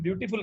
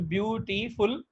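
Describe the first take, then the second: First: Said in the usual way. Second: ब्यूटीफुल split as ब्यू, टी, फुल; broken into syllables. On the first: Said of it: "अगर हम ब्यूटीफुल कहते हैं". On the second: Shown as a demonstration. Teacher showing three syllables to students, ब्यूटीफुल said piece by piece. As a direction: sound out ब्यूटीफुल in three separate beats. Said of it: "तो इसमें तीन syllable हैं".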